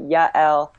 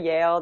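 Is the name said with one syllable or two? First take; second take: two; one. First: The name is said with two syllables. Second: The name is said with one syllable. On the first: The speaker calls it right. "so two syllables" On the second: The speaker calls it wrong. "a lot of people say Yale"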